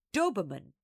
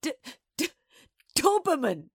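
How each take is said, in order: First: Put-on old lady delivering the last line; measured, falling punchline; quavering recital. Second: High, loud stammering splutter; old lady convulsed, stuttering the first sound; sputtering. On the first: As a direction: land the final word of the verse. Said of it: "had reached the last line". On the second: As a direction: splutter the word out through mirth. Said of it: "old Missus B sputtered and shook". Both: A narrator's reading.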